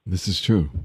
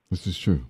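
No difference in how they are said.

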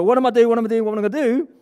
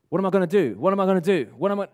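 First: Loud, high, hurried panicked babble; mock panic. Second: Measured, deliberate asking, each question given room; composed question. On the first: Coach imitating the question with bad body language, loud high mock panic. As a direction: fire the questions out in an exaggerated fluster. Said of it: "bad body language". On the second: Acted. Coach showing the question asked with good body language, composed and deliberate. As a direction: imitate someone asking themselves purposefully. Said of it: "now, now you're talking".

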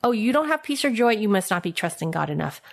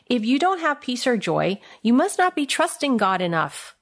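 First: Fast, dismissive imitation of a churchgoer; mock preachy quote. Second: Quoting a myth. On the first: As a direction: rattle it off like a know-it-all. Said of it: "Have you heard that before?". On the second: Retold or imitated. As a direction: quote the saying at face value, a little raised. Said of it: "here's a second myth".

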